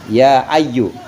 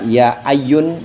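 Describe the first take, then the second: First: The word ends in a short u vowel. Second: The word ends in an -un sound. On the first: The speaker calls it right. "harus dibaca gitu" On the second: The speaker calls it wrong. "nggak boleh ya ayun"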